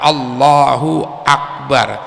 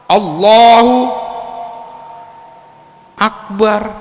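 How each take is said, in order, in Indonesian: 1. Kedua kata itu mengalir menyambung tanpa jeda. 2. Jeda yang panjang memisahkan kedua kata itu. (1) "jangan dirubah tuh kalimatnya" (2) "dibengong dulu tuh antara lafadz Allah dengan akbar"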